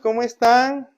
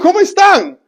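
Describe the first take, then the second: First: The voice stays flat with little pitch change. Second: The voice is lively with rising and falling pitch. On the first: The speaker calls it wrong. "¿Cómo se sentirán ustedes?" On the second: The speaker calls it right. "empiezo a modular y a hacer un cambio de voz"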